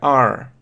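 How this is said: The vowel ends with an audible r sound. "в американском иногда просто добавляют ре"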